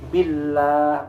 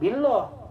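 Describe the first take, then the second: First: The lam is light with an 'a' vowel. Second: The lam is heavy with an 'o' vowel. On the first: The speaker calls it right. "bukan o tapi a" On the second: The speaker calls it wrong.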